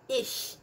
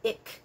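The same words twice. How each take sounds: First: The word is said with a German-style ending sound. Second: The word is said with a Dutch-style ending sound. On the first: The speaker calls it right. "So ich" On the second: The speaker calls it wrong. "It's not ich. Ich is actually Dutch"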